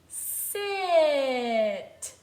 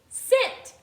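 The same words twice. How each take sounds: First: The word is stretched out slowly. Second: The word is said at normal speed.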